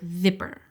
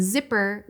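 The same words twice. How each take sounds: First: "zipper" with a lisped th-like z, tongue between teeth; interdental lisp. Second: Said in the usual way. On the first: Shown as a demonstration. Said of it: "would sound like zipper". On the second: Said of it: "and zipper would sound like".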